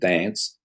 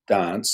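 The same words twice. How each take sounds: First: The vowel is said the Australian way. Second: The vowel is said the English way. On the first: This is how most Australians say it. "dance is the proper Australian way to say it" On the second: This is a trace of an English background. "I still say dance instead of dance"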